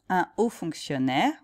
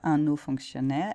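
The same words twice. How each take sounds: First: Un is kept separate, with no n link. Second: Un links to haut with an n sound. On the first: The speaker calls it right. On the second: The speaker calls it wrong.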